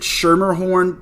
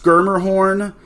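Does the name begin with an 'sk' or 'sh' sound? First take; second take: sh; sk. First: The name begins with a soft 'sh' sound. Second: The name begins with a hard 'sk' sound. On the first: This is how the speaker has always said the name. "I've always pronounced it" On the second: This is how the broadcast says the name. "from what I was hearing on the broadcast, it's pronounced"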